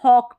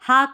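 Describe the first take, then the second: First: The vowel is a rounded 'aw' sound. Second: The vowel is an open 'ah' sound. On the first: The speaker calls it right. "हॉक पढ़े" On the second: The speaker calls it wrong. "हाक नहीं पढ़े"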